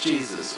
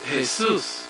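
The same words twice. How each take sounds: First: The name is pronounced the English way. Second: The name is pronounced the Spanish way. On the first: This is the English form of the name. "which is Jesus" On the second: This is the name in another tongue. "let's take Jesus"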